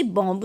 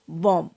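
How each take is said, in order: First: बॉम्ब with the b sounded, as bomb; बॉम्ब with a hard final b; wrong way. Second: बॉम्ब said as bom, b silent; बॉम्ब ends on the m, no b; right way. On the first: Teacher shows students the wrong बॉम्ब with b. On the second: Teacher gives the class the correct बॉम्ब. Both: Shown as a demonstration. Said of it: "इसे बॉम्ब नहीं पढ़ेंगे".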